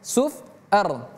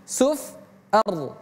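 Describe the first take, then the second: The two takes are said the same way.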